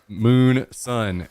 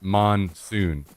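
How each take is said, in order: First: It sounds like the two words moon and sun. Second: It sounds like the single word monsoon. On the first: The speaker calls it right. "It was very clearly two O's and one, Moon Sun" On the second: The speaker calls it wrong. "and not Monsoon"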